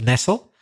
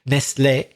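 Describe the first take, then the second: First: The word is pronounced the English way. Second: The word is pronounced the French way. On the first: It is the verb meaning to settle comfortably. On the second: It is the name of the chocolate maker.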